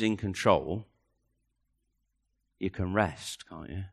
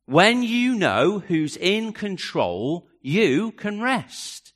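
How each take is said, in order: First: Lowered, gentle and soft; soft and hushed. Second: Slowly, each word weighed; slow and deliberate. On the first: Preacher to congregation, hushed and intimate. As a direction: say it almost under your breath. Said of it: "repeats the line slowly". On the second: Preacher pressing the point home, slow and deliberate. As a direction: drag it out so it sinks in. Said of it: "repeated line, slowed down". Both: Acted.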